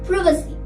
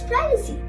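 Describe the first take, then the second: First: It is said with a British accent. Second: It is said with an American accent. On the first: "in the U K accent" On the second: "In the U S accent"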